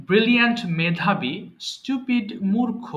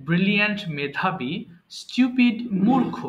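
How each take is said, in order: The two takes are said the same way.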